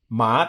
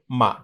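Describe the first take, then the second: First: The pitch rises from mid to high. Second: The syllable is short and light, without contour. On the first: It means hemp. "this is going from about a two to a five" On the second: It marks a question. "this neutral word here"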